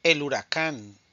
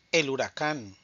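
The two takes are said the same way.

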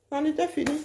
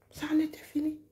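First: Said in the usual way. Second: Soft whispered echo. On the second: Real, not acted. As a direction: whisper the words "Ça en était fini". Repeated line, now whispered.

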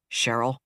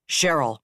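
First: Said in the usual way. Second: "Cheryl" said more sharply, a bit louder, firm fall; sharper call. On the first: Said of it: "he said again, more sharply". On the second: A narrator's reading. Admiral calls his dazed ops officer, sharply. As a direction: snap her out of it with her name. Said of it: "more sharply".

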